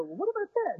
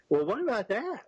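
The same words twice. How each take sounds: First: High squeaky mock question, much higher; goofy question. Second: Mildly goofy question, a bit raised. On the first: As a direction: ask it like a goofball, pitched way up. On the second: Retold or imitated. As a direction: ask it a touch like a goofball. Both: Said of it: "Like a goofball".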